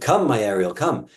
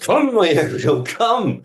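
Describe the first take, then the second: First: The voice sounds calm and even. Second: The voice sounds frustrated and worried.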